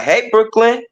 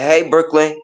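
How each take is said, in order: First: "Hey, Brooklyn." called out again with a much higher, rising "Brooklyn". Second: Said in the usual way. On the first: Retold or imitated. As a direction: call her name again, pitched up high and rising at the end. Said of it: "And I'd be like". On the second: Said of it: "I could be like".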